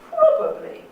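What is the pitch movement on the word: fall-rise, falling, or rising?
falling. The pitch falls across the word. "fall on probably"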